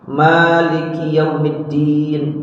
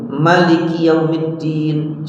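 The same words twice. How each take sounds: First: The first syllable has a long vowel. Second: The first syllable has a short vowel. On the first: "ma-nya boleh dibaca panjang" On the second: "boleh dibaca pendek"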